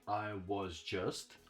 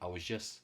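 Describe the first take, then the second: First: The final T of 'just' is pronounced. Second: The final T of 'just' is dropped. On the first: "Instead of saying I was just" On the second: "I'm not pronouncing this T at the end"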